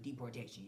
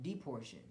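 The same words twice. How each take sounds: First: Deportation said in full, de-por-TAY-shun; corrected pronunciation. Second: Deportation slurred as "depor-shun", middle syllable dropped; wrong pronunciation. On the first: Shown as a demonstration. Correcting himself after a slip, deportation said in full. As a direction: spell out every syllable of deportation, softly. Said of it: "but deportation". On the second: Real, not acted. Speaker forcing a rhyme, deportation squeezed short. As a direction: clip deportation to three syllables like a rhyme, softer. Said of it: "not deportation".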